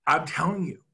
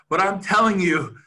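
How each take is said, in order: First: Said in the usual way. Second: "telling" hit hard and loud in "I'm telling you"; louder insistence. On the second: Real, not acted. Speaker urging agents to believe him, "telling" punched loud. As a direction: lean hard on "telling" to drive it home.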